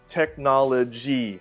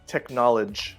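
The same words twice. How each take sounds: First: The final syllable is clearly pronounced. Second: The final syllable is left off. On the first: The speaker calls it right. "technology, not" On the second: The speaker calls it wrong. "forget to say the final syllable"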